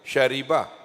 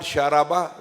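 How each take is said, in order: First: The middle vowel is 'i'. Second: The middle vowel is 'a'. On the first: The speaker calls it right. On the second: The speaker calls it wrong.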